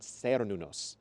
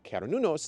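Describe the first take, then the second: First: The name begins with a soft S sound. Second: The name begins with a hard K sound. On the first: The speaker calls it wrong. "not Cernunnos" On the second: The speaker calls it right. "the C would be hard, therefore making Cernunnos"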